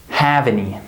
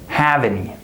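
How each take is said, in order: Both takes have the same delivery.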